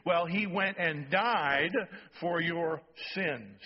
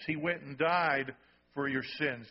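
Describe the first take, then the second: First: Drawn out, each word leaned on; slow, weighty sermon emphasis. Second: Said in the usual way. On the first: Shown as a demonstration. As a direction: preach it slowly so it lands. Slow emphatic preaching repeat.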